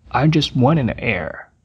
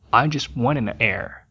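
First: Frase devagar no volume normal; lento, voz normal. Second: Frase devagar e mais baixa; lento e baixo. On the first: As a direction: repita com calma, sem baixar. (demonstração lenta, volume normal) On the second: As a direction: diga cada ligação com calma. (demonstração lenta e baixa) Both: Shown as a demonstration. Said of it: "juntando as duas palavras".

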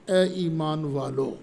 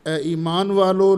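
First: Said in the usual way. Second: Louder, proclaiming address; calling out. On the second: Real, not acted. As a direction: call out to the believers. Preacher calls out the address.

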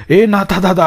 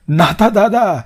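First: Louder call with ए stressed, higher pitch. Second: Loud call across the yard, higher. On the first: Hari calling his elder brother again from outside, louder call. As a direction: shout ए to wake him. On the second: Younger brother calling Natha awake from the yard, loud call. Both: Acted.

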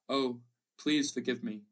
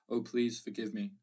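First: Slow, louder tearful begging; sobbing plea. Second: Caressing, seductive plea. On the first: Wife kneeling before her husband begs forgiveness, sobbing. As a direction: beg through sobs for forgiveness. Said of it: "she sobbed". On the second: Remembered mother appeals to the father, lightly seductive plea. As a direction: coax him, lightly caressing. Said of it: "caressing, seductive". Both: A narrator's reading.

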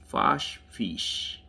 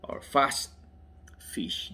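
First: "Fash" ending in a sh sound; "Fash" with sh, like "Fish"; unsure pronunciation. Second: "Fast" ending in st; tentative "Fast", st before "Fish"; alternative pronunciation. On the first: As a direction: say "Fash" to rhyme with "cash", trying it out. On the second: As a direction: offer "Fast" with a crisp st instead of sh. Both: Real, not acted. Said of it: "How to pronounce it?".

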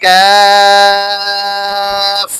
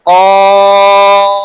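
First: কাফ held long and even from the mouth; drawn-out kaf. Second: কফ said loud from the back of the throat; deep qaf sound. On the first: Teacher contrasting kaf with qaf for students, long held tone. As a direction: stretch কাফ slowly on one tone. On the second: Teacher contrasting qaf with kaf for students, loud throaty letter. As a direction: push কফ out hard from deep in the throat. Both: Shown as a demonstration. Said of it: "এখানে খেয়াল করুন".

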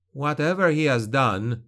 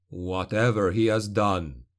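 First: Insist, defending his father; young noble's plea. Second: Lower, mocking echo of the son's words; sneering echo. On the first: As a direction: son standing up for his father. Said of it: "he repeated". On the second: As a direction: throw his words back with a sneer. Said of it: "echoed Fullman". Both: A narrator's reading.

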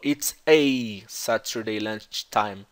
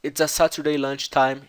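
First: The a in "Saturday" flat and closed, American style, said very slowly; slow American take of "It's a Saturday lunchtime"; American accent. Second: The a in "Saturday" open and long, British style; British take of "It's a Saturday lunchtime" with an open a; British accent. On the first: Teacher showing students how an American would say it. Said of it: "Perceba que ele não falou". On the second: Teacher showing students the British pronunciation. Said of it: "Então o A é aberto". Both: Shown as a demonstration.

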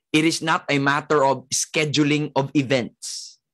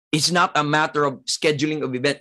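First: Said in the usual way. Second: Same line again, fast and brisk; quick repeat. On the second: Shown as a demonstration. Preacher repeating his point fast to the congregation. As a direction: rattle it off quickly, pressing the point. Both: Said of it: "repeated at once".

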